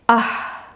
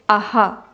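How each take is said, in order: First: It ends in a bare puff of breath. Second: The breath is followed by an echoed vowel. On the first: "supposed to be pronounced as an expulsion of air" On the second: "mostly in the south, we pronounce it as aha"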